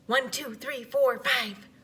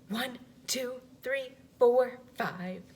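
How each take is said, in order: First: The numbers are counted very fast. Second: The numbers are counted a little faster.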